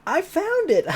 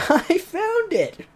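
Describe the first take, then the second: First: High, loud triumphant cry; excited shout. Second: High, slow, laughing through the shout; laughing excited shout. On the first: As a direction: shout it out like you just struck gold. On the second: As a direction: crack up mid-cry. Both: Acted. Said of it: "popped out at the very moment shouting".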